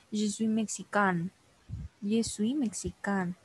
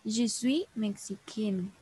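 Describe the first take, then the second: First: "mexicain" ending in an open nasal "-kan"; forma masculina. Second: "mexicain" ending in "-kenn", N sounded; very slow "mexicain" said as feminine "meksiken"; forma femenina. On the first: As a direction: slowly model "mexicain" as masculine "meksikan". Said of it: "Para el caso de los hombres". ("mexicain" lento, terminado en "-kan", forma masculina) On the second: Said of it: "tienen otra terminación". ("mexicain" muy lento, terminado en "-ken", forma femenina) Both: Shown as a demonstration.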